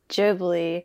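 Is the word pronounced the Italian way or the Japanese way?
Japanese. The word is pronounced in a Japanese way. "the Japanese pronunciation of the studio is Ghibli"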